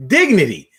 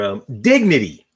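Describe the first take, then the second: First: "Dignity." said louder with a firm fall; stressed repeat. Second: Said in the usual way. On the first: Shown as a demonstration. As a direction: land hard on "Dignity.".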